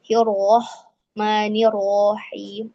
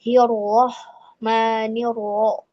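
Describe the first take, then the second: First: Hirohmanirrohim said slowly with lips still on ro; correct ro. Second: Hirohmanirro said slowly with lips pushed out on ro; wrong pouting ro. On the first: Teacher models the right ro after the wrong one. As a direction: keep the lips flat on ro. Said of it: "tidak seperti itu ya". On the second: Teacher contrasts the wrong pouting ro. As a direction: pout on the ro to show the error. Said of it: "kalau itu jadi ... tidak seperti itu". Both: Shown as a demonstration.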